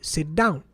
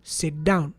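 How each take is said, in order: First: The T is merged into the following D. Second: The same.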